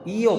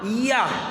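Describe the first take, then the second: First: The word ends with an o vowel. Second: The word ends with an a vowel. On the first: "iyo pakai O" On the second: "Ada juga pakai A"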